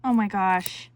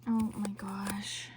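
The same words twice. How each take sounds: First: Excited. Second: Slow, hushed oh my gosh; awed whisper. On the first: Excited reaction to kit. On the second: Crafter whispering oh my gosh at the kit. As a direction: breathe it out in wonder. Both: Real, not acted.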